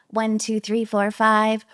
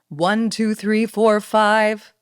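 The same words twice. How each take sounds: First: The voice sounds small and childlike. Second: The voice sounds full and confident. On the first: "like a little kid in the first one" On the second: "that's like a confident woman on that second one"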